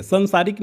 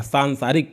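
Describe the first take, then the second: First: सांसारिक with a short first vowel, "san-saarik"; wrong form demonstrated. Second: सांसारिक with a long open "saan" first; correct form demonstrated. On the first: Teacher rejects the misreading, wrong form demonstrated. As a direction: say सांसारिक as san-saa-rik, pitched up. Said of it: "सांसारिक नहीं". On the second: Teacher tells students how to read it, correct form demonstrated. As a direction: say सांसारिक as saan-saa-rik. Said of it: "सांसारिक पढ़ेंगे". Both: Shown as a demonstration.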